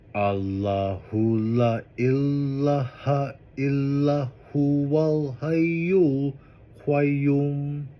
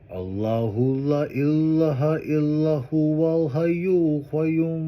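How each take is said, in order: First: It is said slowly. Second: It is said faster.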